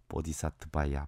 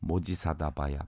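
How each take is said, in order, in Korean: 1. 산스크리트어 bodhisattvaya로 발음해요. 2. 한국식 mojisadabaya로 발음해요. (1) "원어로 보면" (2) "한국식 발음으로"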